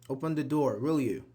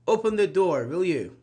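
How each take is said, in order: First: Said in the usual way. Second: Louder, firm order with the tag tacked on; firm command. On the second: Shown as a demonstration. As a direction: bark "Open the door" like a command.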